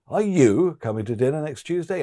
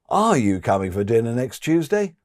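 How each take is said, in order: First: The word "you" carries the stress. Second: The word "are" carries the stress. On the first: Others in the group have already been asked. "Or emphasize you" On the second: The listener still hasn't made up their mind yet. "Emphasize are"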